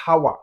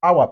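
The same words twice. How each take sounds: First: "hour" with a breathy h at the start; wrong, H sounded. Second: "hour" opening straight on the vowel, "ow-a"; silent H. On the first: Teacher showing learners the mistake, "hour" with h sounded. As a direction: pronounce the H in "hour", like "how-a". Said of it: "on ne dit pas hour". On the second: Teacher correcting the mistake, "hour" with no h. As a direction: drop the H completely from "hour". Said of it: "l'état H est silencieux aussi". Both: Shown as a demonstration.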